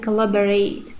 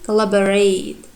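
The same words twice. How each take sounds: The two takes are said the same way.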